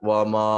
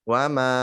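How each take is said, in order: First: The 'ma' is said with a thick, heavy sound. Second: The 'ma' is said with a thin, light sound. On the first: The speaker calls it wrong. "bukan wa ma adro wa ma ma ma" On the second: The speaker calls it right. "tetap tipis"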